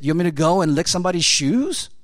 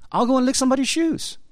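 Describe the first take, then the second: First: Said in the usual way. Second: Much higher, fast, eager "I'll go and lick somebody's shoes"; eager surrender. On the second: Acted. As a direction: blurt it out high and fast, ready to obey. Eager answer of willing surrender.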